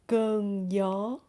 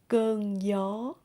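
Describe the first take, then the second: First: Southern accent, the gi sounds like y. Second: Southern accent, the gi sounds like y.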